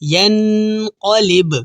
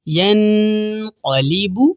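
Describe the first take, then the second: First: The final b stops with an echoing bounce. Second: The word ends on a short u vowel.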